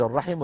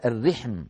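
First: "الرحم" as ar-rahim, vowels a then i; first word form. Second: "الرحم" as ar-rihm, I after R, no second vowel; variant word form. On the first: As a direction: say "الرحم" with A after the R, I before the M. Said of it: "العرب تقول الرحم وتقول". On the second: Teacher giving the dialectal variant, "الرحم" pronounced ar-rihm. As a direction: say "الرحم" with short I and a closed HM ending. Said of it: "رحما لغة في الرحم". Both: Shown as a demonstration.

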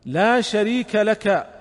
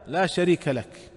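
First: لا شريك لك higher, louder and very slow, weight on لا; solemn slow emphasis on لا شريك لك; emphatic and slow. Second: Said in the usual way. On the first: Shown as a demonstration. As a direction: preach لا شريك لك slowly with a strong لا. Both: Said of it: "هنا أتى بالتوحيد".

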